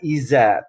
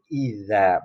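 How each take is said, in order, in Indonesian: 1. Konsonan tengahnya terdengar seperti z. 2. Konsonan tengahnya terdengar seperti dh. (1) "bukan iza" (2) "tapi idza"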